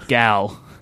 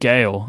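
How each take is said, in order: First: The vowel sounds like the one in 'pal'. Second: The vowel sounds like the one in 'pale'. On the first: The speaker calls it right. "It's Gal" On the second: The speaker calls it wrong. "I also said Gale"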